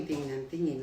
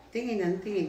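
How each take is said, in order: First: Said in the usual way. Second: Raised, higher, louder complaint about being stared at; half-playful exasperation at his staring; exasperated complaint. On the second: Retold or imitated. Young woman complaining to her sister about the staring boss, raised and exasperated.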